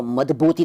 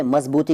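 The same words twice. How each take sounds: First: मजबूती said "madbooti". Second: Said in the usual way. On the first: Shown as a demonstration. Teacher showing the rejected form, मजबूती with d for z. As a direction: put a d for the z in मजबूती. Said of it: "तो नहीं कहते". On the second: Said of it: "तो उसको मजबूती तो नहीं कहते".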